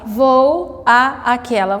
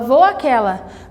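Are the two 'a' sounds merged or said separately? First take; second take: separately; merged. First: The two a sounds are said separately. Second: The two a sounds merge into one. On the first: The speaker calls it wrong. "Você não fala vou a aquela" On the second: The speaker calls it right. "você fala vou aquela"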